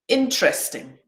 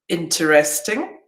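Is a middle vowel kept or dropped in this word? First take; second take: dropped; kept. First: It is said quickly with a middle vowel dropped. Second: It is said slowly with every vowel kept. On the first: "when I say these quickly, it'll sound like this" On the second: "that's how I would pronounce these words slowly"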